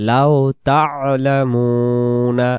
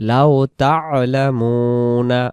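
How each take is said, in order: No difference in how they are said.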